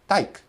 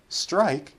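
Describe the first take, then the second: First: Only the t is kept from the cluster. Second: All three opening consonants are said together without vowels. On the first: A non-native speaker drops consonants. "they're just eliminating" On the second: This is how a native speaker says it. "how a native speaker would say it"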